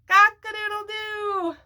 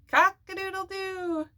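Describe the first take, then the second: First: The crow is said very loudly. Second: The crow is said louder.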